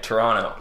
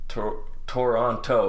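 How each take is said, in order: First: The second T sound is dropped. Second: The second T sound is clearly pronounced. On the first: The speaker is a real Canadian. The speaker calls it right. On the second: The speaker is not really from Canada. The speaker calls it wrong.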